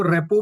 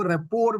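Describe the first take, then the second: First: रेपो with a silent final r, ending on the open o; said as repo. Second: रेपोर with the final r sounded, repor; said as rapport. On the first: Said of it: "कुछ लोग इसको रेपो भी बोलते हैं". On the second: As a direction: say रेपोर with a clear r at the end. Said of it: "कुछ लोग इसको रेपोर भी बोलते हैं". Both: Shown as a demonstration.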